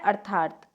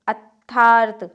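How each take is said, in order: First: अर्थार्थ as ar-thaat, r in the first syllable; correct form. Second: अर्थार्थ as at-thaarth, first r missing; loud at-thaarth for अर्थार्थ; wrong form. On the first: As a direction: sound the r early in अर्थार्थ. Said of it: "क्या होता है?". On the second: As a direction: leave the first r out of अर्थार्थ, loudly. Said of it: "नहीं". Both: Shown as a demonstration.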